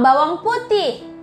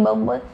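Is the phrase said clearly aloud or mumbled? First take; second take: clear; mumbled. First: It is said clearly aloud with good intonation. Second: It is mumbled quietly and indistinctly. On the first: The speaker calls it right. "Membacalah dengan suara yang baik" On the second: The speaker calls it wrong. "Jangan kita membacanya seperti bergumam"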